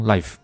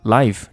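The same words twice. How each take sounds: First: "life" with the ai glide cut short; "life" with an incomplete ai sound; clipped diphthong. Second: "Life" with the whole ai glide; "Life" said fully and clearly; full diphthong. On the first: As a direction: wrongly shorten the vowel in "life". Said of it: "不要读成life". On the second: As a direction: give the vowel of "Life" its full length. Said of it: "中心词读得很标准". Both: Shown as a demonstration.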